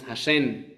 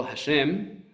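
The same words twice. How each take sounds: First: Hashem ending in N instead of M, like Hashen; wrong Hashem with N. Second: Hashem ending in a clear M sound; correct Hashem. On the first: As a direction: say Hashem with a final N, the common mistake. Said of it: "con N". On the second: Teacher showing parents the correct Hashem with final M. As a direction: say Hashem with a closed-lips final M. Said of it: "decimos Hashem con N". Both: Shown as a demonstration.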